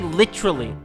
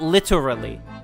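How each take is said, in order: First: It is said in a British accent. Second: It is said in an American accent. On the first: The speaker calls it right. "we say literally" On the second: The speaker calls it wrong. "not literally"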